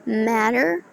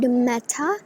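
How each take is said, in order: First: The final R sound is clearly pronounced. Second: The final R sound is dropped. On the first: "it's much like American" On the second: "We are not pronouncing the R. It's if it's British"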